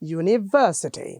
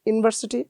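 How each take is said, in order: First: The pitch moves up and down across the word. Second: The pitch stays level across the word. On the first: The speaker calls it right. "এরকম একটা শব্দ তরঙ্গ তৈরি হচ্ছে" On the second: The speaker calls it wrong. "কোনো music নেই"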